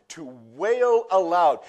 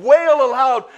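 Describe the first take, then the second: First: Said in the usual way. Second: Loud wail. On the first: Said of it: "it literally means to sob". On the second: Shown as a demonstration. Pastor acting out Jesus wailing, high and loud. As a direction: wail aloud, much higher and louder. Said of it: "Jesus began to literally sob and".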